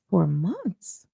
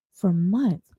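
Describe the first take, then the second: First: "months" swooping up into a question; incredulous echo question. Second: Said in the usual way. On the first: Acted. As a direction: echo "For months?" in disbelief, rising at the end. Echoes his answer in disbelief.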